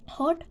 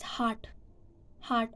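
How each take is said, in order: First: American pronunciation of "hot"; "hot" with an unrounded American vowel. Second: British pronunciation of "heart", meaning hot; "heart" for British hot, less jaw drop. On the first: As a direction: say "hot" the American way, with relaxed lips and dropped jaw. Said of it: "So American, uh, pronounce hot as". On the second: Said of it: "and the British are pronounce". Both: Shown as a demonstration.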